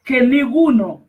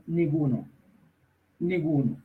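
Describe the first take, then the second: First: "ninguno" proclaimed high and strong, falling; preacher stressing "ninguno" to the congregation; emphatic ninguno. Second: Preacher softly echoing "ninguno"; soft repeat. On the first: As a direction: hit "ninguno" hard and high. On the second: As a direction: let "ninguno" fall away quietly. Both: Acted. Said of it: "repeated ninguno, emphatic then soft".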